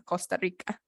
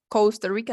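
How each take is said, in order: First: Said in the usual way. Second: Costa said Kousta with an English ou. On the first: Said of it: "no, Costa Rica". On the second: Shown as a demonstration. Teacher contrasts the English Costa with the Spanish one. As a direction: give Costa an English ou vowel. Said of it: "no, cos".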